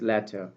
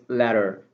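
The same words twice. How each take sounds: First: The middle T is a crisp aspirated t. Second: The middle T is a soft flapped d. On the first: "in British accent it's letter" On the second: "but in American accent it is letter"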